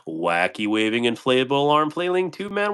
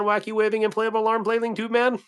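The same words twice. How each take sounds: First: Said in the usual way. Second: Wacky waving inflatable arm flailing tube man pitched way up and goofy; silly high voice. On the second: Shown as a demonstration. Repeats the tongue twister for chat, in a high goofy voice. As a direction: squeak the phrase like a cartoon pitchman. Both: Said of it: "Man, that's a mouthful".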